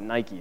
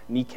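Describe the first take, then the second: First: The word is said the common everyday way. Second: The word is said the actual original way. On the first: The speaker calls it wrong. "We pronounce it Nike" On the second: The speaker calls it right. "It's actually pronounced Nike"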